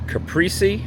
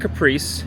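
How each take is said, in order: First: The word does not sound like the car name. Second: The word sounds like the car name Caprice. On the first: The speaker calls it right. "This is the Caprese" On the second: The speaker calls it wrong. "not Caprice. Caprice is a car"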